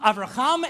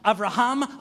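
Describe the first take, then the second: First: The last consonant is a throaty, raspy ch. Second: The last consonant is a soft, breathy h. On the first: "turned into a chuz" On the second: "each enunciated hey"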